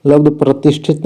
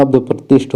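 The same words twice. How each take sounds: First: लब्ध प्रतिष्ठित ending in -it; wrong form. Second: लब्ध प्रतिष्ठ stopping on the ष्ठ cluster; correct form. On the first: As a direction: set up लब्ध प्रतिष्ठित with the extra last syllable. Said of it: "लब्ध प्रतिष्ठ होता है". (लब्ध प्रतिष्ठित, अंत में इत जोड़कर) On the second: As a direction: end लब्ध प्रतिष्ठ without -it, settling. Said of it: "लब्ध प्रतिष्ठित नहीं होता". (लब्ध प्रतिष्ठ, अंत में इत नहीं) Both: Shown as a demonstration.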